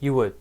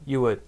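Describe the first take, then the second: No difference in how they are said.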